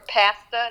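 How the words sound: It is said in a Canadian accent.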